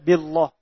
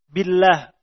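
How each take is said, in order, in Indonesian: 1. L pada Allah itu tebal dan penuh. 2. L pada Allah itu tipis dan ringan.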